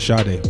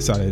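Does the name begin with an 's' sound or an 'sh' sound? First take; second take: sh; s. First: The name begins with an sh sound. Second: The name begins with a plain s sound. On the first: The speaker calls it wrong. "I used to call it Sade, but it's not" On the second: The speaker calls it right. "There's no. Sh"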